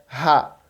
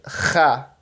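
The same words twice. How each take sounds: First: Aspirated H at the start of "ra"; plain H. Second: "ra" with a harsh throat-scraped H; rasping back-of-throat fricative opening "ra"; hawked H. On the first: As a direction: say "ra" as a light "ha", no scraping. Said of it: "O H é ra". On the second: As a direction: scrape the start of "ra" as if clearing the throat. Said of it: "só que escarrado". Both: Shown as a demonstration.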